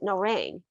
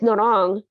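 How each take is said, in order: First: The name is said with an English-style pronunciation. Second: The name is said with a Korean-style pronunciation. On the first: The speaker calls it wrong. "we would pronounce it Norang" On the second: The speaker calls it right. "it's Norang"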